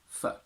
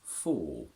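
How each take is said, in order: First: The vowel is reduced to a short weak sound. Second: The vowel is full and clearly pronounced. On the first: "its weak one is" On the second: "The strong form of this word is"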